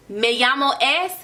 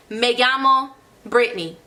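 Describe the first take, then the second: First: "Me llamo es" said as the learner's mistake, with a rising "es"; wrong version. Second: Said in the usual way. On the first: Shown as a demonstration. Teacher showing students the mistake to avoid, rising questioningly. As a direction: demonstrate the common error "Me llamo es". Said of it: "No, don't say that". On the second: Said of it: "I don't need to say".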